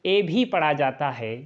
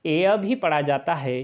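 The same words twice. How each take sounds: First: ए said as a single "ay" vowel; pure e sound. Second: ए said as "ay-uh", gliding into a schwa; e-a glide. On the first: Teacher listing the readings of EA, pure e sound. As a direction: give ए one steady vowel, no glide. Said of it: "ए को ए भी पढ़ा जाता है". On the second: Teacher listing the readings of EA, e-a glide. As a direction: let ए fall away into a short "uh". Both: Shown as a demonstration.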